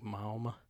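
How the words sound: The vowel glides with a w sound in it. This is a Southern way of saying it. "in the South, you got a W in there"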